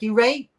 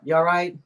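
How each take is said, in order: First: It is said in a clipped Chesterfield accent. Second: It is said in a general accent, fully.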